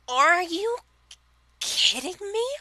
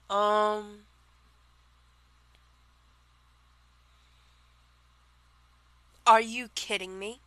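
First: It is said in a put-on character voice. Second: It is said in the speaker's ordinary voice.

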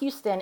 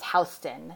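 First: It is said like the Texas city name. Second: It is not said like the Texas city. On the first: It names the city in Texas. The speaker calls it wrong. "not Houston. It looks like the city in Texas" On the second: It names the Manhattan street. The speaker calls it right. "The street that divides Soho and the rest of Manhattan is Houston"

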